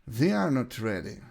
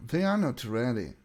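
The two takes are said the same way.

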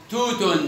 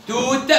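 First: توت said as "tootun"; damma tanween. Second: توت ending on released t; sukun ending. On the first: Teacher tests pupils, توت ending in -un. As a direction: add -un to توت. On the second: Teacher tests pupils, توت stopped on t. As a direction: say توت with no final vowel. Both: Shown as a demonstration. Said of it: "نطقت تاء وتاء".

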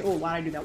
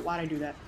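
First: Exclaim. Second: Said in the usual way. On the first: Real, not acted.

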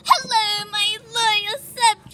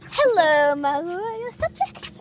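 First: Grand royal greeting; slow, high regal address; warm regal boom. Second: Royal greeting, slowed; warm regal boom. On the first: Pretending to be Rapunzel royalty. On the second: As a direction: queenly voice. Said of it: "Stop it". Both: Pretend.

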